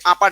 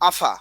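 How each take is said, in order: First: The word begins with a plain p sound. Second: The word begins with an f-like sound. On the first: "আমরা শুদ্ধ ভাষায় বলি আপা" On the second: "আঞ্চলিকতার কারণে বলতে পারি আফা"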